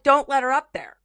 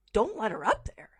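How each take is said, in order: First: Higher, louder warning call; a worker shouting to keep her out; workers' warning. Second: Softer, unvoiced echo, rising; whispered echo. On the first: Retold or imitated. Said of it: "they're like". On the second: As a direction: repeat it to yourself in disbelief. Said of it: "And I said it out, out loud to myself".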